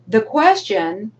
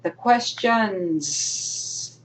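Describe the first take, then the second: First: Said in the usual way. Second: "questions" drawn out with a long final s; slow, emphatic "questions", hanging on the s; stress on plural QUESTIONS. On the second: Shown as a demonstration. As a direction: stretch the plural ending of "questions". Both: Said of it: "let me rephrase that".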